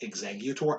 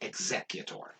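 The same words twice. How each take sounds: First: The middle consonant is a hard g sound. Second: The middle consonant is an s sound. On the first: The speaker calls it right. "knowing that it is in fact executor" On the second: The speaker calls it wrong. "I pronounce the G's like like S C"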